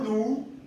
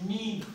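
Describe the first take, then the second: First: The vowel sounds like a plain oo. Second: The vowel is ee said with rounded lips. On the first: The speaker calls it wrong. "No nu" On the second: The speaker calls it right. "Pongo la boca en forma de U, pero tiene que salir el sonido de la letra I"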